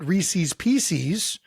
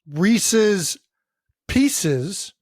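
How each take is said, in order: First: It is said in a regional local accent. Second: It is said in a standard, general accent. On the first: This is how the speaker's group says it. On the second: This is how most people say it.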